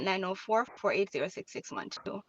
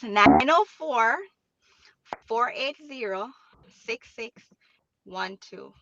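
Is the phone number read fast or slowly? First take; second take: fast; slowly. First: The number is read quickly. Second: The number is read slowly. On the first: The speaker calls it wrong. "I always say it fast" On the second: The speaker calls it right. "a little bit slower"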